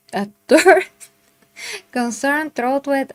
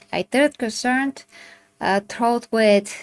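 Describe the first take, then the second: First: "third concern, throat with" re-read through a laugh, starting high and loud; laughing retake. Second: Said in the usual way. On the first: Shown as a demonstration. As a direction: laugh at your own misreading and try the words again.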